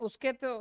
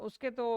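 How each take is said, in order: The two takes are said the same way.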